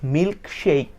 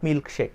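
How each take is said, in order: First: The vowel in 'shake' is an 'ay' glide. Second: The vowel in 'shake' is a plain 'e'. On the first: The speaker calls it right. "সঠিক পদ্ধতিতে" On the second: The speaker calls it wrong. "Not milk শেক"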